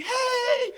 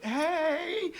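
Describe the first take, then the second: First: Very high, squealed mock hello; big-smile greeting. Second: Answering greeting. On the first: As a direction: greet like a delighted, smiling host. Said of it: "she's got this big smile". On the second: Retold or imitated. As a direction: echo the cheery hello less forcefully. His answering greeting to Shelley.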